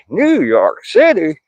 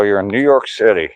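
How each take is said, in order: First: High, slow New York City drawl; New York accent. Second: Said in the usual way. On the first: Shown as a demonstration. Reading a viewer's city aloud in a New York accent. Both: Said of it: "Sorry, I had to do that".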